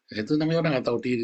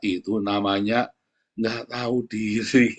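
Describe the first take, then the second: First: Said in the usual way. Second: "Itu namanya nggak tahu diri" spelled out slowly, each word weighted; slow, deliberate stress on "nggak tahu diri"; slow emphasis. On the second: Shown as a demonstration.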